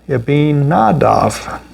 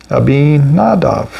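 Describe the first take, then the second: The two takes are said the same way.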